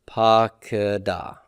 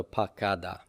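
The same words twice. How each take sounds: First: "pakada" with a brief schwa in the middle; reduced middle vowel. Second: "pakada" with a full "ah" in the middle; full middle vowel. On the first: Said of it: "you see that vocal shava here". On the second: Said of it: "all the way up to the full kametz". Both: Shown as a demonstration.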